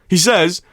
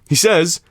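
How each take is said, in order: The two takes are said the same way.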